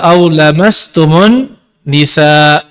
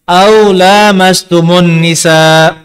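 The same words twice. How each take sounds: First: The vowel after the L is short. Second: The vowel after the L is long. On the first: "lamnya dibaca pendek" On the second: "Lamnya dibaca panjang"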